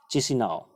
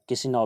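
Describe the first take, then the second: First: चिसिनाओ with a ch at the start, chi-si-naa-o; teacher saying चिसिनाओ with a clear ch sound; चिसिनाओ starting with ch, not k; ch pronunciation. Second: किसिनाओ with a k at the start, ki-si-naa-o; किसिनाओ starting with k, not ch; k pronunciation. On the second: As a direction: alternate reading किसिनाओ with a hard k. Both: Shown as a demonstration. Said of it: "चिसिनाओ या किसिनाओ भी इसको पढ़ सकते हैं".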